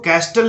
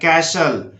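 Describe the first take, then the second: First: The t sound is clearly pronounced. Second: The t sound is silent. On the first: The speaker calls it wrong. "इसको कैस्टल नहीं बोलना है" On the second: The speaker calls it right. "कैशल बोलना है"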